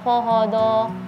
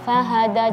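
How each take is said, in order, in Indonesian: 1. Bunyi h-nya ditahan, anginnya tertahan di dalam. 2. Bunyi h-nya berdesir, anginnya keluar. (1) "jangan fahada" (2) "huruf-huruf tipis usahakan angin itu keluar"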